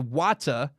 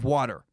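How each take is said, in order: First: It is said in a British accent. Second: It is said in an American accent.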